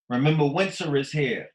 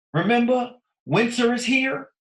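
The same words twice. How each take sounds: First: Said in the usual way. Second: Pitched way up and louder, rallying; excited high call. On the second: Real, not acted. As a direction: throw it up high to remind them. Rhetorical call to the audience.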